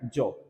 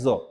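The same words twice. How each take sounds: First: The word begins with a plain 'j' sound. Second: The word begins with a buzzing 'z' sound. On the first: "सामान्य रूप से ये क्या है" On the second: "अब क्या हो गया है"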